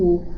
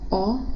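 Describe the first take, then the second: First: The vowel is said with a closed mouth. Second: The vowel is said with an open mouth. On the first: "o O fechado" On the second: "o O aberto"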